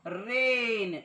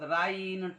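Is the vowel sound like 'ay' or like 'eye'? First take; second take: ay; eye. First: The vowel sounds like 'ay'. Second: The vowel sounds like 'eye'. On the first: The speaker calls it right. "देखील ए होतो बघा" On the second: The speaker calls it wrong. "ते असे वाचू शकतात"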